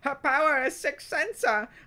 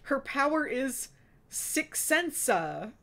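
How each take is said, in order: First: It is read in a put-on character voice. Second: It is read in a plain everyday voice. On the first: The speaker calls it right. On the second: The speaker calls it wrong.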